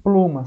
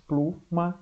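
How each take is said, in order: First: Said in the usual way. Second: "pluma" broken into plu and ma; "plu... ma", a gap between; syllable split. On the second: Shown as a demonstration. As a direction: say "pluma" in two separate efforts. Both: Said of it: "são dois esforços".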